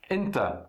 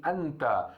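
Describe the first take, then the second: First: Enta dito com e aberto, coloquial; colloquial enta. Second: Anta com a aberto, árabe clássico; classical anta. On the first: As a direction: diga enta como no árabe do dia a dia. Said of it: "a gente fala enta". (enta com e, pronúncia coloquial) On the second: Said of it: "no árabe clássico seria assim". (anta com a, pronúncia clássica) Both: Shown as a demonstration.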